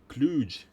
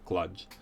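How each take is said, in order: First: The word is said drawn out and soft. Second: The word is said short and crisp. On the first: "more uh, drawn out and soft" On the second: "I pronounce it like clutch"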